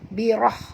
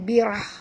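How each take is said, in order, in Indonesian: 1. Bunyi h itu kuat dan berdesah. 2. Bunyi h itu biasa dan lemah. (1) "tapi baca birah birah ya, bunyikan ha pedas tu" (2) "jangan baca birah"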